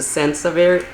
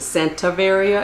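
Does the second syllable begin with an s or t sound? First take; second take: s sound; t sound. First: The second syllable begins with an s sound. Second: The second syllable begins with a t sound. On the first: The speaker calls it right. "as opposed to Sansaveria" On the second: The speaker calls it wrong. "I pronounced it Santaveria"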